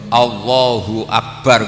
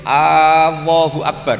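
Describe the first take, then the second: First: The opening vowel is short and crisp. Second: The opening vowel is drawn out long. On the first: It states that God is the greatest. The speaker calls it right. "kudu tegas" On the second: It asks whether God is the greatest. The speaker calls it wrong. "Tapi kamu panjangkan sedikit"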